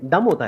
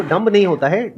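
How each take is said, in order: First: "डम" ending on m, no b sound; silent B. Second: "डम्ब" with an audible b after the m; pronounced B. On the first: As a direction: drop the final b in "डम". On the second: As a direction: sound the final b in "डम्ब". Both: Shown as a demonstration. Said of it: "क्योंकि बी silent है".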